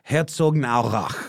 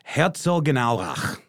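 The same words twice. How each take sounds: First: The 'gen' syllable is reduced and blurred together. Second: The 'gen' syllable is pronounced fully and distinctly. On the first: The speaker calls it right. "The GN kind of like just blurs together" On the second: The speaker calls it wrong. "I think I overpronounced the gen"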